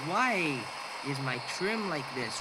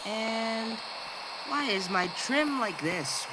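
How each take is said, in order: First: Said in the usual way. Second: Slow, grand theatrical delivery; drawn out like a stage actor. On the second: Acted. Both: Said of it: "Why am I talking in a very theatrical voice?".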